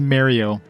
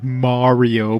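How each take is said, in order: First: The name is said in a Canadian accent. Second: The name is said in an Italian-style accent. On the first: This is how the speaker personally says the name. "It's my Canadian accent" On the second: This is how the name is usually said. "it's like Mario"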